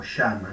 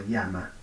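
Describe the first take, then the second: First: "llama" with a voiceless sh, like "shama"; "llama" said with a soft voiceless sh; yeísta sh sound. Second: "llama" with a voiced palatal ll, like "lyama"; "llama" with a careful non-yeísta ll. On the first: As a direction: say "llama" the Río de la Plata way, starting with sh. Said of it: "que es yeísta". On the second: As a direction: say "llama" with the tongue flat against the palate, voiced. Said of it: "digo llama, no digo llama". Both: Shown as a demonstration.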